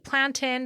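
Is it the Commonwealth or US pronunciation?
Commonwealth. It is said the Commonwealth way.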